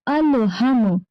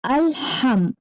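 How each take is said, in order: First: अलहम run together without a stop; the wrong अलहम, voice flowing through; wrong take. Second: अलहम with the voice stopped on म; the correct अलहम, cut short at the end; right take. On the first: Teacher shows children the wrong अलहम, no stop. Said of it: "इस तरह नहीं पढ़ना". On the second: Teacher shows children अलहम with a stop. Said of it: "आवाज को stop करना है". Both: Shown as a demonstration.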